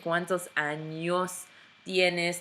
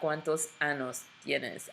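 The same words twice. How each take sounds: First: The word has a ny sound in the middle. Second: The word has a plain n in the middle. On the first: It asks how many years someone has. The speaker calls it right. "you're saying cuántos años tienes" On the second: It asks about something very inappropriate. The speaker calls it wrong.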